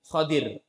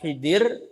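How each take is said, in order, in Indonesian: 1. Vokal pertama terdengar seperti 'o'. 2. Vokal pertama terdengar seperti 'i'. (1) "tetapi dengan fathah huruf haknya" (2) "penyebutan Khidir itu kurang tepat"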